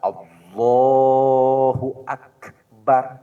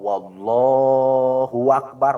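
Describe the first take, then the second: First: No extra sound is added anywhere. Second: A w sound comes before Allah. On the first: The speaker calls it right. "itu yang benar" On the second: The speaker calls it wrong. "Atau dari lapad Allah ada wawu"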